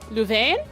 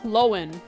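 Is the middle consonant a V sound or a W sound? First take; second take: V sound; W sound. First: The middle consonant is a V sound. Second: The middle consonant is a W sound. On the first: The speaker calls it wrong. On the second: The speaker calls it right.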